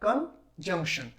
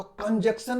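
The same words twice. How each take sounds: First: कंजंक्शन said as kun-junk-shun, with a clear nasal n before the k, slow; teacher's model of कंजंक्शन, slow and nasal in the middle; correct pronunciation. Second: कंजक्शन said as kun-jak-shun, with no nasal n before the k; the common mistake, कंजक्शन without the n; mispronounced कंजक्शन, no nasal sound; wrong pronunciation. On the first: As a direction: spell out कंजंक्शन slowly, sounding the nasal n. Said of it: "तो कंजक्शन नहीं कहना है". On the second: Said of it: "कुछ लोग इसमें कंजक्शन कह देते हैं". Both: Shown as a demonstration.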